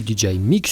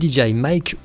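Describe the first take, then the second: First: The name is said with French pronunciation. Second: The name is said with English pronunciation.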